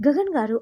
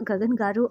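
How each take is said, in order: First: Calling his name, higher and louder; sweetly calling Gagan from a distance. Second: Said in the usual way. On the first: A narrator's reading. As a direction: call out to him across the room. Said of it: "అని పిలుస్తూ ఉంటే". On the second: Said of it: "అంటూ వస్తూ వస్తూ".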